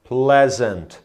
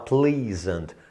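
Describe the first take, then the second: First: The first syllable does not sound like please. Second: The first syllable sounds like the word please. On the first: The speaker calls it right. "A pronúncia é pleasant" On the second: The speaker calls it wrong. "pensa no por favor, né? E fala please, aí fala pleasant. Não, tá errado"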